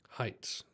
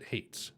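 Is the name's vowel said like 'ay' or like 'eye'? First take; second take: eye; ay. First: The vowel sounds like 'eye'. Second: The vowel sounds like 'ay'. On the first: The speaker calls it right. "That's how you say it" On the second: The speaker calls it wrong. "pronounce it hates still"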